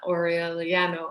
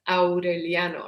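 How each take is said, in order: First: The A and U run together, English style. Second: The A and U are said as separate vowels. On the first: The speaker calls it wrong. "or however you would say it in English" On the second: The speaker calls it right. "the A and the U are separate"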